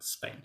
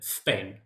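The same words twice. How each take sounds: First: The word begins with a plain s sound. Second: The word begins with a lisped th sound. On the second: "a lot of S's sound like S, right? So"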